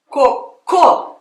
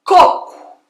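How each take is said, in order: First: "cocô" as co-CÔ; stress on last syllable. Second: Loud, high first CÔ in "coco"; stress on first syllable. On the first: Teacher explaining to American learner, last-syllable stress. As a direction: punch the final CÔ of "cocô". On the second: Teacher explaining to American learner, first-syllable stress. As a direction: punch the start of "coco". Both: Shown as a demonstration. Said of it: "mas eu explicando".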